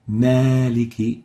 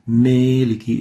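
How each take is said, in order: First: The first vowel is a pure open 'a'. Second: The first vowel leans toward an 'ee' sound. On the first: The speaker calls it right. "Maliki is right" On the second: The speaker calls it wrong. "So Maliki is wrong"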